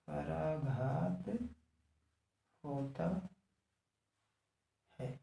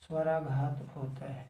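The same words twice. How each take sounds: First: Soft, stretched words with long gaps. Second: Said in the usual way. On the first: Real, not acted. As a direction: dictate it word by word, quietly. Repeats it word by word.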